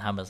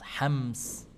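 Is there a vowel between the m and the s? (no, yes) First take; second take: yes; no. First: A vowel is inserted between the m and s. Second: The m and s join with no vowel. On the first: The speaker calls it wrong. "bukan hamas" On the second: The speaker calls it right. "S-nya disukunkan"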